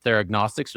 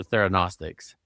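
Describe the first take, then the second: First: "theragnostics" with a hard G before the N; pronounced with G. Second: "theranostics" with no G before the N; pronounced without G. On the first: Host asking doctor the correct pronunciation, "theragnostics" with G sounded. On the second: Host offering doctor the other pronunciation, "theranostics" without any G. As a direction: go straight to N in "theranostics". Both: Shown as a demonstration. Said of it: "I don't know the correct pronunciation".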